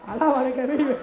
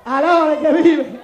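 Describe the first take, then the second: First: Laughing praise. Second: Slow, louder proclamation; loud preacher's praise. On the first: Real, not acted. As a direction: praise through a chuckle. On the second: Acted. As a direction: call it out to the church.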